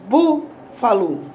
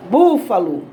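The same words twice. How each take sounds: First: "búfalo" slowly split, BÚ set apart first; BÚ, then fa-lo after a gap; syllable by syllable. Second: Said in the usual way. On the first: Shown as a demonstration. Teacher showing the tonic syllable of "búfalo", BÚ stressed and separated. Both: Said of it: "Pode ser falando ou batendo palma".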